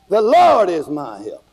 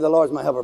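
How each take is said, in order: First: It is said boldly, with attitude. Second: It is said plainly, without attitude.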